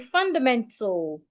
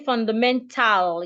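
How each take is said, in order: First: The vowel in the last syllable is silent. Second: The vowel in the last syllable is clearly pronounced. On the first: The speaker calls it right. "The A becomes silent, so we say fundamental" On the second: The speaker calls it wrong. "you don't say fundamental"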